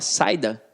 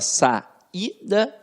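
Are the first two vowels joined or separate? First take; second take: joined; separate. First: The first two vowels are joined together. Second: The first two vowels are kept separate. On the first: The speaker calls it wrong. "você fala saída" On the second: The speaker calls it right. "Não, você fala saída... esta vogal fica isolada"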